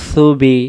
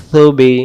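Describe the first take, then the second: No difference in how they are said.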